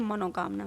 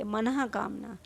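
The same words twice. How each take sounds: First: Put-on मनोकामना said the way many children say it, with a plain ओ in the middle; wrong pronunciation. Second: मनोकामना said with a breathy visarga h after 'man', as 'manahkamna'; correct pronunciation. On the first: Teacher imitating students' mistaken pronunciation, plain 'mano'. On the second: Teacher correcting students, visarga h clearly voiced. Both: Shown as a demonstration. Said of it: "मनोकामना नहीं है ये".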